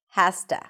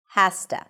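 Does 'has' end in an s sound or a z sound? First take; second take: s; s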